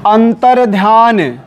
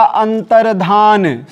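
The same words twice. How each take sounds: First: अंतर्ध्यान with a y in "dhyaan"; wrong form. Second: अंतर्धान ending in plain "dhaan"; no y sound in अंतर्धान; correct form. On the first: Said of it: "अशुद्ध, शुद्ध क्या होगा?". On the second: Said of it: "शुद्ध होगा इसका". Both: Shown as a demonstration.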